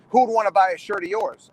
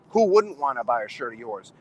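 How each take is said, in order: First: Mock put-down, voice up a little; dismissive put-down. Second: Lower-pitched reassuring retort, not actually whispered; confiding reversal. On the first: Wrestler mimicking those who beat down the kids, dismissive. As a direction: belittle them with the question. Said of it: "they're beating down these kids". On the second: Retold or imitated. Wrestler confiding in a young wrestler's ear, lower, encouraging. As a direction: drop the pitch and turn the put-down around. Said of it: "I whisper in his ear".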